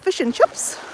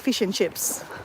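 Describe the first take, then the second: First: It is spoken in a New Zealand accent. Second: It is spoken in an Australian accent. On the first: "she says" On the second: "we say"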